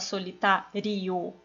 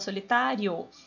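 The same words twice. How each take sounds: First: The ending 'rio' is split into two syllables. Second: The ending 'rio' is joined into one syllable. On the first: The speaker calls it wrong. "Você não fala solitário" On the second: The speaker calls it right. "você fala solitário. Então é uma coisa só"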